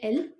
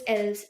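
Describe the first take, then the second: First: The word ends without any s sound. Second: The word ends with an audible s sound. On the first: The speaker calls it right. "It's il, el" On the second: The speaker calls it wrong. "That's really um not the pronunciation"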